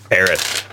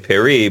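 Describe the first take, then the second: First: Paris is said with an English pronunciation. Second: Paris is said with a French pronunciation. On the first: "when you were asked the question, you said Paris" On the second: "the French also say Paris"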